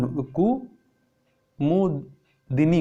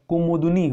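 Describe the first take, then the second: First: कुमुदिनी drawn out slowly with a clear i after d; correct pronunciation, slow. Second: कुमुदनी with no i after d; wrong pronunciation. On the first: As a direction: stretch out कुमुदिनी. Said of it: "होता है". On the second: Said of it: "कुमुदनी नहीं होता है". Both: Shown as a demonstration.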